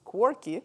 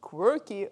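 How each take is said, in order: First: Quirky said as wor-kee, no kw sound; Quirky with a Russian wor-kee vowel; Russian-accented pronunciation. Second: Quirky said kwer-kee, with a clear kw; Quirky with kw and the er vowel; corrected pronunciation. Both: Shown as a demonstration. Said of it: "the kids correct me as in this pronunciation".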